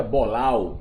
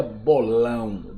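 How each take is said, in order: First: "bolau" with an oral au, no nasality; denasalised ending. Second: "bolão" with a nasal ão at the end. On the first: Teacher showing the word without its tilde, oral "bolau". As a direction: say "bolau", ending on a plain ow sound. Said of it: "o tio aí indica o som nasal". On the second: Teacher showing what the tilde does, nasal "bolão". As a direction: say "bolão", letting the final vowel resonate through the nose. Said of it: "indica o som nasal ão". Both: Shown as a demonstration.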